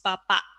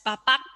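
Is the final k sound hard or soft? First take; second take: soft; hard. First: The final k is soft and barely released. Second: The final k is released fully and hard. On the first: The speaker calls it right. "it's softer, so it becomes bapak" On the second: The speaker calls it wrong. "it's not uh, pronounced as bapak"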